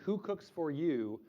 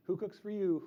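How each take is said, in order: First: Said in the usual way. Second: The words hooted in an owl voice; teacher hoots the phrase for the kids; owl-call words. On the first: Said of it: "it sounds like they're saying". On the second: Shown as a demonstration. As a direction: sing it out like a barred owl. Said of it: "but in an owl noise".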